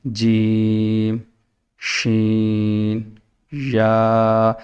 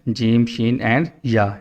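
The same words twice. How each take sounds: First: Each letter stretched out very slowly. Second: Rushed letters. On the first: Teacher showing pupils the right way, very slow and stretched. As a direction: draw out every letter, no hurry. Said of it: "یعنی کہ آہستہ". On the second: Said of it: "ایسے نہیں کرنا". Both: Shown as a demonstration.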